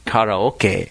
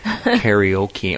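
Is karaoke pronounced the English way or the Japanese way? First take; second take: Japanese; English. First: It has a Japanese-style pronunciation. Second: It has an English-style pronunciation. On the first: The speaker calls it right. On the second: The speaker calls it wrong.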